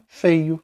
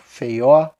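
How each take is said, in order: First: The stress is on the first syllable. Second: The stress is on the last syllable. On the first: The speaker calls it right. "esse o não é a tônica" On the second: The speaker calls it wrong. "não existe feio, feió"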